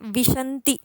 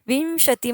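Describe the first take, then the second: First: The nasal sound comes in the second syllable. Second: The nasal sound comes in the first syllable. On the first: The speaker calls it wrong. "विशंती असं जर pronunciation क केलं" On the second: The speaker calls it right. "अनुस्वार जो आहे तो वी वरती आहे म्हणून विंशती म्हणायचंय"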